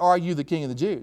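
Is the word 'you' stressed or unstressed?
unstressed. The word 'you' is not emphasized.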